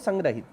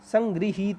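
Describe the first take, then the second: First: The second syllable is said as gra. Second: The second syllable is said as gri. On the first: The speaker calls it wrong. "बहुत सारे बच्चे इसे पढ़ते हैं संग्रहित, संग्रहित नहीं होता" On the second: The speaker calls it right. "री री बोलना सीखो"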